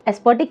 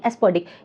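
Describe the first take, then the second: First: The word is said with a t sound. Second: The word is said with a d sound. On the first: The speaker calls it wrong. "एस्पर्टिक नहीं" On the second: The speaker calls it right. "एस्पर्टिक की जगह एस्पर्डिक, तो ये जो डी word है"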